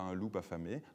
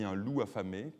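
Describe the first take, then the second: First: A liaison sound joins loup to affamé. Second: Loup and affamé are said with no liaison. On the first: The speaker calls it wrong. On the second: The speaker calls it right. "On dit"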